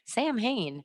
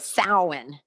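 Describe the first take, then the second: First: The word sounds like 'Sam Hain' with an h. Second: The word is said without the 'Sam Hain' sounds. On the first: The speaker calls it wrong. "It looks like Sam Hain, which is how I pronounced it for a while" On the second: The speaker calls it right. "finally I figured it out"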